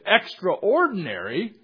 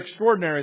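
First: The stress falls on the syllable 'extra'. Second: The stress falls on the syllable 'traor'. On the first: Something is outside the normal. "It means something out of the normal" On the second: Something is incredible or wonderful. "it's like incredible, wonderful"

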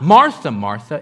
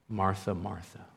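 First: It is said in a harsh, scolding tone. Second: It is said in a warm, affectionate tone.

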